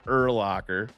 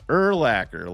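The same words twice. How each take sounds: First: The middle syllable sounds like 'lock'. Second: The middle syllable sounds like 'lack'. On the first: The speaker calls it wrong. "It's not Urlacher" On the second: The speaker calls it right. "like linebacker"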